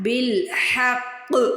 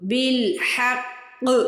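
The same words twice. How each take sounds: First: The final consonant is pressed with full force. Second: The final consonant is pressed with full force.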